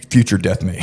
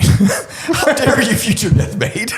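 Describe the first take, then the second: First: Said in the usual way. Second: Very high, slow, laughing mock outrage; mock outraged wife. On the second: Ex-wife confronting him at the golf club, hammed-up outrage. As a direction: stretch it out in a shrill fake outrage while cracking up. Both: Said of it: "And she's like".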